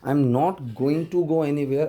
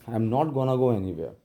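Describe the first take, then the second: First: 'Going to' is said as two full words. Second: 'Going to' is merged into one short 'gonna'. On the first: "sentence बन गया" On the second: "इसी को मर्ज करके गोना बना देते हैं"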